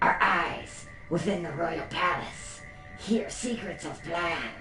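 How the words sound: It is read in a put-on rat voice.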